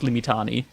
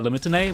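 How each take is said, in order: First: The word is said with a German pronunciation. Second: The word is said with an English pronunciation. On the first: "When I speak German, it's like" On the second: "When I speak in English, I say"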